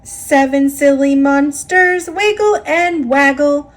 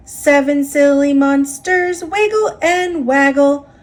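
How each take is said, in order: Both takes have the same delivery.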